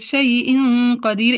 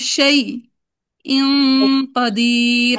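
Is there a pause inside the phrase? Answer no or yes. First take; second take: no; yes. First: It is said smoothly without any pause. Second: It is said with a short pause inside. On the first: "एक ही फ्लो में पढ़ते हैं।" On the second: "यानी बीच में पॉज लेंगे"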